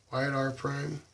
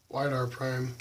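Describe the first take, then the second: No difference in how they are said.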